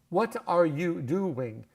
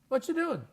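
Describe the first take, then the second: First: Each word of 'what are you' is said separately. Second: The first words blend together into 'whatcha'.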